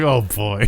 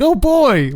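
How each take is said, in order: First: It sounds weary and resigned. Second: It sounds eager and excited.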